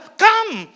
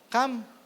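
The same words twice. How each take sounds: First: It is said forcefully, with strong urgency. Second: It is said plainly, without any urgency. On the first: The listener should respond right away. The speaker calls it right. "ito yung sinasabi ni Jesus na ... may urgency" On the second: It is a simple, ordinary invitation. The speaker calls it wrong. "Hindi ito basta sinasabi ni Jesus na"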